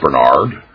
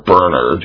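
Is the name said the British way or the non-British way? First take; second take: non-British; British. First: The name is said in a non-British way. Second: The name is said in a British way.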